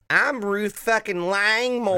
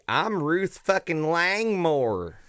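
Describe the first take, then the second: First: The voice is higher in pitch. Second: The voice is lower in pitch. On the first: The speaker calls it right. "That's better. That's much better" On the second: The speaker calls it wrong. "I realize she has such a high-pitched voice"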